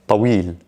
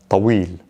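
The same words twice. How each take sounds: Both takes have the same delivery.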